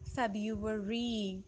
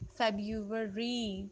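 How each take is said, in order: No difference in how they are said.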